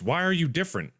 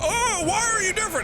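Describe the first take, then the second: First: It sounds sincere and genuinely puzzled. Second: It sounds put-on and mocking, not sincere. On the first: The question is a real request for an explanation. "I'm literally confused" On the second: The question is a dramatic complaint, not a real one. "I'm not saying that in a like a"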